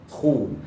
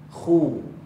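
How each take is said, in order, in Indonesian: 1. Bibir dimonyongkan ke depan, bunyinya U yang jelas. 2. Bibir dimonyongkan ke depan, bunyinya U yang jelas.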